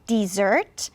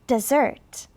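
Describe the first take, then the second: First: The first vowel is a full, clear vowel. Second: The first vowel is reduced to a weak schwa. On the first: "Some people will say dessert" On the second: "you'll say da. Repeat after me, da"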